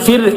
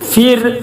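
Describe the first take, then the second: First: The r sound is light and thin. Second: The r sound is heavy and full-mouthed. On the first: The speaker calls it right. "ഫിർ എന്ന് പറയാൻ കാരണം" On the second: The speaker calls it wrong. "എന്ന് പറയാതെ"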